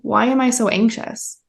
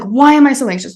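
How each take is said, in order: First: The voice sounds soft and curious. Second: The voice sounds tense and agitated. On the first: The feeling is met with awareness and care. "giving awareness and love to your anxiety" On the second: The feeling is being fought against. "you're like having that anxious"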